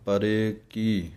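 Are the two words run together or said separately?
separately. The two words are said separately. The speaker calls it right. "ਵੱਖਰਾ ਵੱਖਰਾ ਹੈ"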